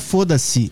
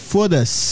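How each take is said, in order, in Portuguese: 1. Ela é dita com pronúncia do português brasileiro. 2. Ela é dita com pronúncia do português europeu. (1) "Não é foda-se" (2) "é foda-se. Termina com S"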